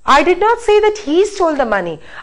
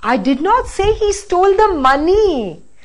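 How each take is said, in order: First: The word he carries the main stress. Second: The word money carries the main stress. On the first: Somebody else stole it. "Now let's stress the next word" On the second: Something other than the money was stolen. "Now the last"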